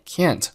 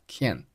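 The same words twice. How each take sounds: First: Said in the usual way. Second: "can" for can't, final t held back; unreleased t. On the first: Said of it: "can't做了重读". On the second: Shown as a demonstration. Teacher showing learners a silent stop, "can" without released t. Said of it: "结尾的t没有爆出来".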